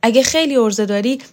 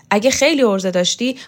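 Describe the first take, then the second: First: خیلی thrown back, higher with a rise; mocking echo. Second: خیلی stretched with a rising sneer; taunting. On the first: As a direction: throw his own taunt back at him. She throws his words back. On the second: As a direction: dare her, leaning on خیلی. Borzoo taunts her. (طعنه با تأکید بر «خیلی») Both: A narrator's reading.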